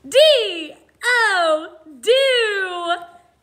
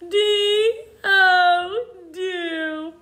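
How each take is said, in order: First: It is spoken in an energetic, excited voice. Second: It is spoken in a whining, crying voice. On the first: "like we're really excited about it" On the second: "like a whiny baby"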